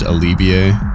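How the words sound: The name is said with a French pronunciation. The speaker calls it right.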